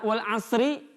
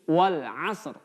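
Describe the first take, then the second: First: The last word ends with a vowel sound. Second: The last word ends with a consonant sound. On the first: The reading continues without stopping. The speaker calls it wrong. "tidak dibaca" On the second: The reading stops at this word. The speaker calls it right. "huruf ri-nya kita matikan menjadi r"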